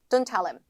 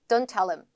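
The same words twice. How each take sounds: Both takes have the same delivery.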